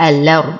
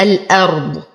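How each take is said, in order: First: الأرض as "alard", lam carrying the a; dropped hamza. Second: الأرض as "al-ard" with a clear glottal stop; sounded hamza. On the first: Teacher showing Warsh's way, الأرض with hamza dropped. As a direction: slide through الأرض without a glottal stop. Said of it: "بحذف الهمزة ونقل حركتها للساكن". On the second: Teacher showing the original word, الأرض with hamza sounded. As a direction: break before the hamza in الأرض. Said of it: "أصل الكلمة الأرض بتحقيق الهمز". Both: Shown as a demonstration.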